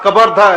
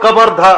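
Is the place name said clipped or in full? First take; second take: clipped; clipped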